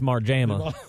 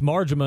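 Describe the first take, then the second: First: The name is said in a Southern accent. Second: The name is said in a standard accent. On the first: "unless you're from the South, and it's Marjama" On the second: "it's Marjama"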